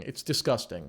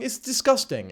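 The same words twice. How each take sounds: First: Said in the usual way. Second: A higher, lingering mock of her voice; high mocking "It's disgusting."; mock girly voice. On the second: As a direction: finish the parody still pitched up. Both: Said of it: "talking like this".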